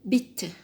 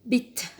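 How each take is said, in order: First: It is said with a British accent. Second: It is said with a British accent.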